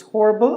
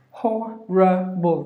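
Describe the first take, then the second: First: HORRIBLE squeezed to "hor-bul"; two syllables. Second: HORRIBLE slowly as "ho, ruh, bul"; three syllables. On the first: Teacher showing the option without schwa, two-syllable pronunciation. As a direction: say HORRIBLE quickly joined, middle schwa dropped. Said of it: "or two syllable without this". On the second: Teacher counting syllables for learners, three-syllable pronunciation. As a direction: sound out HORRIBLE in three separate beats. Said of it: "Three syllables". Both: Shown as a demonstration.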